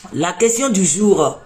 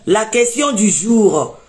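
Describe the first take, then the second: No difference in how they are said.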